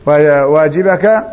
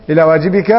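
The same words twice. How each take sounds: First: واجبك said slowly as waajibaka, "a" before the ka; ending vowelled -ka after -ba. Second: واجبك after إلى said waajibika, with "i" after the b; kasra before final -ka. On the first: Teacher trying out the case ending, واجبك slowly as waajibaka. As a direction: draw out واجبك with an open -baka ending. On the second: Teacher correcting the case ending after إلى, واجبك as waajibika. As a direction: give واجبك a -bika ending. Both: Shown as a demonstration. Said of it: "إلى واجبك".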